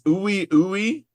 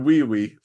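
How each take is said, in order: First: Each part begins with a plain vowel sound. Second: Each part begins with a W sound. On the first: This is the character's actual name. The speaker calls it right. "it's Ui Ui" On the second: This is how it seems it would be pronounced. The speaker calls it wrong. "I'm gonna read it like Wee Wee"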